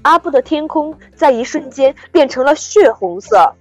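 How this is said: The voice is solid, full and natural.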